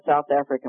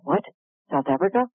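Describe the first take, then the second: First: Said in the usual way. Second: Astonished echo, rising into a question; retold surprise. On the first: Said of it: "He said". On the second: Speaker hearing of her dream place, in retold surprise. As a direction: repeat it in mock disbelief.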